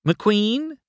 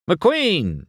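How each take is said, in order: First: High questioning call, rising at the end. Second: High call, falling at the end; mild shout. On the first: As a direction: call his name as if searching. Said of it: "Sally called". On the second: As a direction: hail him like a reporter demanding attention. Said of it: "shouted a T V reporter". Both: A narrator's reading.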